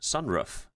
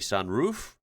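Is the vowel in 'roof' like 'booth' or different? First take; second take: different; like booth. First: Roof has a vowel unlike the one in booth. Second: Roof has the same vowel as booth. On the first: This is the local Midwest way of saying it. "everyone around here says sunroof" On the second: This is how people elsewhere say it. "other people might say sunroof, which does make sense"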